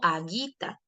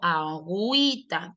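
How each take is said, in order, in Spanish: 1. La u después de la g es muda. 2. La u después de la g se pronuncia. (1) "yo no digo aguita" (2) "sino que digo agüita. Profe, la U suena porque tiene diéresis"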